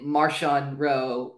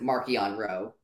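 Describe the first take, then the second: First: The middle consonant is a 'sh' sound. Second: The middle consonant is a 'k' sound. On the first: "Is it Marshawn Roe" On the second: "or is it Markion Roe?"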